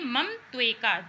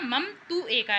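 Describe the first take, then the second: First: The vowels merge into one linked 'tveka'. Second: The vowels of 'tu' and 'eka' are kept separate.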